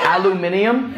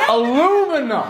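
First: "Aluminium" said British-style, al-yoo-MIN-ee-um, as a question; British pronunciation. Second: "Aluminum" higher, as uh-LOO-min-um, falling; American pronunciation. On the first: Retold or imitated. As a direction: echo "Aluminium" with the extra i, questioning. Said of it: "something that was so not a word". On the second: Shown as a demonstration. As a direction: correct it emphatically to American "Aluminum", no second i. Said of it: "There's no I after the M".

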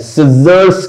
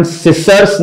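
First: सिजर्स with a buzzing z in the middle; correct z sound. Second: सिसर्स said with a hissing s in the middle; wrong s sound. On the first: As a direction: say सिजर्स with a voiced z. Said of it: "सिजर्स कहते हैं". (सिजर्स में ज़ की आवाज़) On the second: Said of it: "लेकिन हम सिसर्स नहीं कहते हैं". (सिसर्स में स की गलत आवाज़) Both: Shown as a demonstration.

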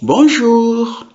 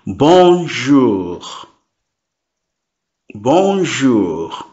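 First: Bonjour sung out much higher, rising bright; cheerful high bonjour. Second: Bonjour drawn out slowly; slow repeat. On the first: Teacher shows a higher friendly bonjour tone. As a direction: greet with a high lilting bonjour. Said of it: "Depending on your tone". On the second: Teacher repeats bonjour slowly for beginners. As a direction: say bonjour slowly for students to copy. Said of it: "I will repeat slowly". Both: Shown as a demonstration.

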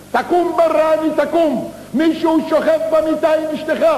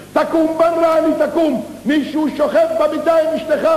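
First: High shouted warning from outside; shouting. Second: Shouting again. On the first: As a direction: yell to wake the sleeping husband. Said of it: "והתחיל לצעוק מבחוץ". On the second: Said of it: "צועק עוד הפעם נביל מבחוץ". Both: Acted.

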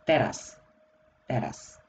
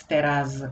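First: "teraz" ending in a voiceless s, "teras"; final z as s. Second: "teraz" ending in a buzzing z; voiced final z. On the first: Teacher showing what we just say, "teraz" with final s. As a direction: let the z of "teraz" soften to s. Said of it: "So we just say". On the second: Teacher showing what is difficult for a tongue, voiced z in "teraz". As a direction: keep the z voiced at the end of "teraz". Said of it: "it's quite difficult". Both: Shown as a demonstration.

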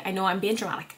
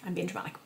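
First: Said in the usual way. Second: Murmured self-aware aside; hushed aside. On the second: Real, not acted. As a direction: drop almost to a murmur, teasing yourself.

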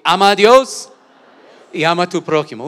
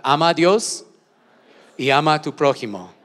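First: Much louder, pitched up, a full shout. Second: Called out loud. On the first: Pastor urging the church to say it louder, shouting. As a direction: shout it out with everything. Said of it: "Una vez más fuerte". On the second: Pastor leading the church in a loud call. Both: Shown as a demonstration.

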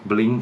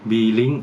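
First: Blink run together as one syllable, "bling"; one-syllable pronunciation. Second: B-Link said as two parts, "bee-link"; pronúncia separada. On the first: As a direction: say Blink as one word, no "bee". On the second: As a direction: say B-Link with a full "bee" before "link". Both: Shown as a demonstration. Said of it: "อ่านว่า Blink หรือ B-Link".

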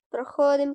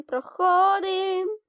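First: Said in the usual way. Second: High, slow singsong проходим; playful slow lilt on проходим; drawn-out sing-song. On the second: Real, not acted. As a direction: stretch проходим up high like a tune. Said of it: "sung-out repeat".

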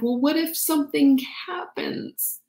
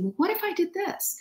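First: Worried unvoiced whisper; anxious whisper. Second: Much higher, softer light question; high curious. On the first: Acting the fearful inner voice, in a worried whisper. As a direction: whisper it like a worry. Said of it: "You're like". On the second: Pretend. Showing the curious question we should ask, high and soft. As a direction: float it up lightly. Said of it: "instead of asking".

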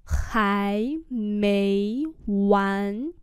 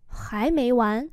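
First: Three drawn-out syllables; slow and separated; slow demonstration. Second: Said in the usual way. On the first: Shown as a demonstration. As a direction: model each rise slowly. Teacher repeats phrase slowly.

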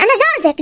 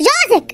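First: Said in the usual way. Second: جوزك repeated, pushed up higher with a firm fall; stressed repeat. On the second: Acted. Husband insists to his bride, جوزك stressed higher. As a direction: hammer جوزك home the second time.

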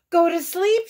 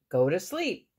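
First: High, loud exclamation; shout. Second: Said in the usual way. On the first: A narrator's reading. Toad reacting to Frog's bedtime remark, shouting. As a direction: shout "Go to sleep" in sudden realisation. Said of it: "shouted Toad". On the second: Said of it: "and then he crossed out".

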